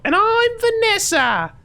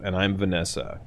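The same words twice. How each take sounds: First: Piercing high falsetto, drawn out; hammed-up falsetto sidekick intro; Vanessa. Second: Said in the usual way. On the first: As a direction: squeal it as the host in a wig. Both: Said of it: "but in a wig".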